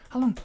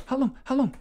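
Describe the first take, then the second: First: Said in the usual way. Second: High, loud disbelief; incredulous. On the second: Real, not acted. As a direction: repeat it higher in shock. Repeated higher and louder.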